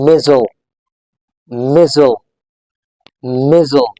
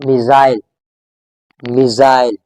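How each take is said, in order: First: "missile" as MIZ-ul, weak last syllable; American pronunciation. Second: "missile" as mi-ZILE, long EYE vowel; British pronunciation. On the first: Teacher showing it pronounced differently, American pronunciation. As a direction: say "missile" with no EYE vowel. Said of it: "In American English". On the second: Teacher modelling the next word, British pronunciation. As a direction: say "missile" to rhyme with while. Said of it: "In British English". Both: Shown as a demonstration.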